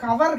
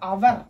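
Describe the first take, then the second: First: The word begins with an h sound. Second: The word begins directly with a vowel. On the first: The speaker calls it wrong. "இது வந்து ஹவர் கிடையாது" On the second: The speaker calls it right. "இது வந்து அவர்"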